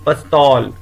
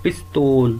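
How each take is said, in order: First: ਪਸਤੌਲ said with a short a after the p, as pas-taul; teacher says ਪਸਤੌਲ clearly with the short pa; pronunciation demo. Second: ਪਿਸਤੌਲ said with an i after the p, as pis-taul; teacher shows the variant ਪਿਸਤੌਲ with the i sound; alternate pronunciation demo. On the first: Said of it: "ਇਸ ਦਾ ਉਚਾਰਨ ਕਰੋ". (ਪਸਤੌਲ, ਪ ਨਾਲ ਛੋਟੀ ਆਵਾਜ਼) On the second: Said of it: "ਦੂਜੇ ਦਾ ਉਚਾਰਨ". (ਪਿਸਤੌਲ, ਪ ਨਾਲ ਸਿਹਾਰੀ) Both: Shown as a demonstration.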